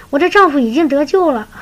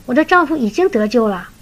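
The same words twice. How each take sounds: First: 我的丈夫已经得救了 high and louder, triumphant; joyful proclamation. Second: 我的丈夫已经得救了 said slightly raised, working it out; a first, wondering conclusion; dawning realisation. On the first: Sister enlightened, joyfully declaring her husband saved. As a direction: announce it with joy. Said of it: "茅塞顿开". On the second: Sister working out her husband is saved, slightly raised. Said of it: "她突然说". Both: Retold or imitated.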